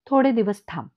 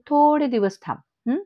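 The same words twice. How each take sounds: First: Mildly irritated, louder insistence; a touch of loud impatience. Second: Derisive singsong repeat with a questioning tail; mocking echo. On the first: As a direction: tell them to wait, firmly and louder. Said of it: "Parshuram काका सुद्धा जरा चिडतो". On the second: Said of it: "Meenakshi काकू हसते आणि म्हणते". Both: A narrator's reading.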